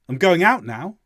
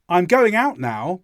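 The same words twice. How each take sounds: First: The I'm is cut down to a quick murmur. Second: The I'm is said as a clear contraction.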